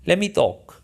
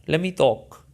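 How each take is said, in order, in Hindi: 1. तेज़ी से बोलने पर "Let me" मिलकर "lemme" बन जाता है। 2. तेज़ी से बोलने पर "Let me" मिलकर "lemme" बन जाता है।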